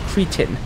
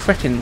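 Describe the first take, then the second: First: The word is given its American pronunciation. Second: The word is given its British pronunciation. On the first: "I hear Americans pronounce it cretin" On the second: "here in the UK it's pronounced cretin"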